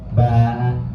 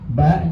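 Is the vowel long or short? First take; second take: long; short. First: The vowel is long, two beats. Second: The vowel is short, one beat.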